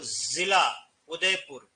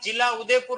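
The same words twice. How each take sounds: First: The first word begins with a 'z' sound. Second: The first word begins with a 'j' sound. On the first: It means the district of Udaipur. "ऐसे लिख रहे हो जिला उदयपुर ... इसका मतलब होता है जनपद" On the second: It means shine of Udaipur. "इस जिला का अर्थ होता है चमक"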